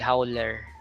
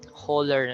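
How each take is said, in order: First: The first vowel is not a plain O sound. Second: The first vowel is a plain O sound. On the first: The speaker calls it wrong. "dili howler" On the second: The speaker calls it right. "hauler na siya tawag"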